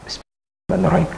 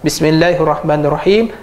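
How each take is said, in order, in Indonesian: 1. Frasa ini dibaca pelan, hampir tanpa suara. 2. Frasa ini dibaca dengan suara keras. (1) "bismillah secara senyap" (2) "Baca tu pula dengan jahat"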